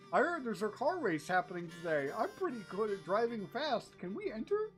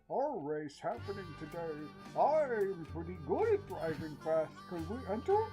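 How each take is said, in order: First: It is said without a Bane mask voice. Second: It is said in a Bane-style masked voice.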